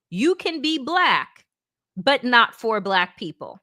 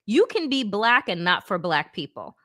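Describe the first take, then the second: First: "You can be black," slowly, then a pause before "but not for black people."; slow, emphatic repeat. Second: Said in the usual way. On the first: Shown as a demonstration. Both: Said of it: "Let me say that again".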